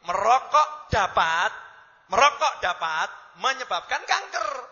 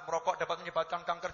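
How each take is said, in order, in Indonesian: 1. Ada jeda tepat setelah dapat. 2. Dibaca dengan lancar, tanpa jeda setelah dapat. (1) "baca yang betul begini" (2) "oh bapak cara bacanya salah"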